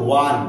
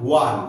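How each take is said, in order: Both takes have the same delivery.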